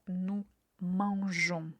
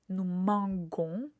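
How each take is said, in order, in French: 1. Le g se prononce doux, comme zh. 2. Le g se prononce dur, comme dans go. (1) "qui nous permet de garder la même prononciation" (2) "la prononciation serait nous manguons et ça fait un peu bizarre"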